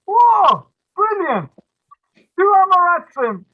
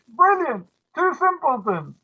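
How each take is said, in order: First: High, loud gleeful cry; delighted shout. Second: High gleeful exclamation; delighted cry. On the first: Matchmaker gleeful at pairing two simpletons, loud delighted shout. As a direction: whoop it out in triumph. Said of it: "So the Shadchan goes". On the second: Matchmaker's line retold in English, high delighted cry. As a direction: exclaim it with glee. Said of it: "Or in English". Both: Retold or imitated.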